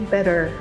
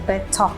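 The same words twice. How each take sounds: First: American accent: T like a D, R pronounced. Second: British accent: clear T, no R, schwa ending. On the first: "they pronounce the T like a D and they pronounce the R" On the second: "for British accent, you cannot hear the R"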